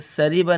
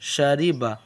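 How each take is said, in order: First: The word begins with a plain s sound. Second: The word begins with an sh sound. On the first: The speaker calls it wrong. "इसको सरीबा नहीं बोलना आपको" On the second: The speaker calls it right. "तो उसको बोलना है शीन"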